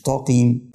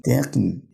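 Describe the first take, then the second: First: "تقيم" as taa-qeem with a thick t; "تقيم" mispronounced with heavy first syllable. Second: "تقيم" as te-qeem with a thin t; light taa. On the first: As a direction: darken the t of "تقيم" into an emphatic taa. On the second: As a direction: keep the first syllable of "تقيم" light. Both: Shown as a demonstration. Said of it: "مش تقيم".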